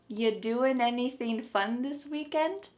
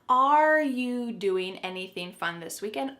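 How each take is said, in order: First: The question starts directly with you, dropping are. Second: The question starts with are before you. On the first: "the word are, it's on vacation" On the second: "Should there be another word? Yep"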